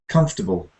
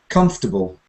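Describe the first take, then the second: Both takes have the same delivery.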